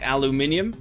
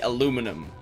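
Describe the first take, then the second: First: The word is said with five syllables. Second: The word is said with four syllables. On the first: The speaker calls it right. "my pronunciation of aluminum sounds better, like aluminium" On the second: The speaker calls it wrong. "dropping an entire uh, syllable"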